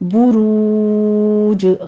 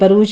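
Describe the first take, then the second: First: The first vowel is a rounded 'u' sound. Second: The first vowel is an open 'a' sound. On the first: The speaker calls it right. "बा के ऊपर पेश है, होंठ गोल कर लीजिए" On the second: The speaker calls it wrong. "बरूज नहीं पढ़ना इसको"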